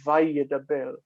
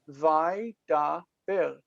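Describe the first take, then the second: First: It is said with four syllables. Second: It is said with three syllables. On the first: It is said as if the doubling mark were there. "Most people will pronounce it that way" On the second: It follows the closed syllable as written. "That's what's written"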